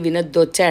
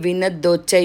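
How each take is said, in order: No difference in how they are said.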